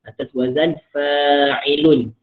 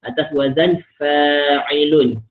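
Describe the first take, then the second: The two takes are said the same way.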